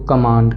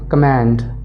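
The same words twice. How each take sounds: First: It is said in a British accent. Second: It is said in an American accent. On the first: "in British accent इसको कमांड कहेंगे" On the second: "American accent में कमांड कहेंगे"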